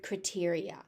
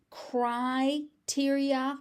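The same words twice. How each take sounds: First: Criteria as "cruh-TEER-ee-a"; reduced first vowel. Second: Criteria as "CRY-teer-ee-a", drawn out; long first vowel. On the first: Teacher on the form also heard, criteria said "cruh-teria". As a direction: begin "criteria" with a short, weak "cruh". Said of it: "I have also heard criteria". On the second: Teacher on the common form, criteria with a drawn-out "cry". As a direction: stretch "cry" at the start of "criteria". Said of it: "I have heard criteria more commonly". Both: Shown as a demonstration.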